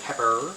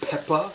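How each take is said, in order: First: It is said in a non-Brooklyn accent. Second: It is said in a Brooklyn accent. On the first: "If you're from someone else" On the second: "that's right, I'm from Brooklyn"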